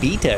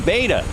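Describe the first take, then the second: First: The word is said the European way. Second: The word is said the non-European way.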